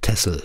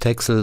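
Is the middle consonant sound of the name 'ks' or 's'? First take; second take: s; ks. First: The middle consonant is pronounced as s. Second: The middle consonant is pronounced as ks. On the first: The speaker calls it right. "sondern wird Tessel ausgesprochen" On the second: The speaker calls it wrong. "die Insel heißt auch nicht Texel"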